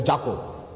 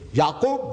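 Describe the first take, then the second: First: The name begins with a J sound. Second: The name begins with a Y sound. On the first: Others changed the name to this form. The speaker calls it wrong. "they say Jacob" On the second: This is the original form of the name. The speaker calls it right. "where there's no J"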